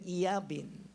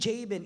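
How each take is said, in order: First: The name begins with a Y sound. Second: The name begins with a J sound. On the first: The speaker calls it right. "maganda i-pronounce sa, sa, sa, sa Hebrew" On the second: The speaker calls it wrong. "Hindi Jabin"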